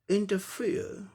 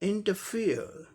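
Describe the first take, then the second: The two takes are said the same way.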